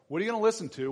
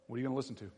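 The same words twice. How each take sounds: First: Higher, louder demand on listen; pressing question. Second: Quiet question. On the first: Preacher to teenagers, pressing the question harder. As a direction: challenge them with it. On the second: Preacher to teenagers, quietly asking the question. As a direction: say it softly to yourself first. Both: Shown as a demonstration.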